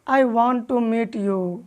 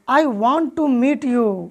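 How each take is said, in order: First: It is said flatly, without feeling. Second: It is said with lively, fitting feeling. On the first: The speaker calls it wrong. "यदि आप उसी को इस तरह से बोलते हैं" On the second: The speaker calls it right. "उसी स्टाइल में आप अंग्रेजी बोलने का प्रैक्टिस करते हैं"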